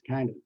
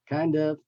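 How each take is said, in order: First: The words merge into one reduced word. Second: Both words are said fully and separately.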